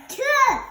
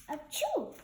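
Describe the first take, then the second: First: Very loud high achoo bursting out; huge sneeze. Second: Small achoo at normal level; softer sneeze. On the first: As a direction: sneeze with everything you have. Gerald sneezes again. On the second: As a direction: hold the sneeze back, keep it small. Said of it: "sneeze more soft, softer". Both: Acted.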